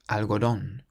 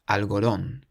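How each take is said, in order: Both takes have the same delivery.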